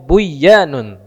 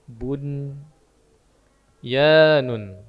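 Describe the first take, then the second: First: The n merges into the y and disappears. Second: The n is pronounced clearly before the y. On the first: The speaker calls it wrong. "Kalau aslinya kalau nun ketemu ya jadinya buyanun" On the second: The speaker calls it right. "tapi ini dibaca je, jelas"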